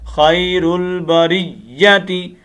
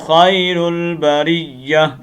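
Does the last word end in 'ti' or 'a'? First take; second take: ti; a. First: The last word ends with a 'ti' sound. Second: The last word ends with an 'a' sound. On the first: The reciter continues without stopping. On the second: The reciter stops at this word.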